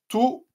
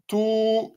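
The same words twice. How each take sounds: First: The vowel is said short. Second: The vowel is said long. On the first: "voyelle courte" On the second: "voyelle longue"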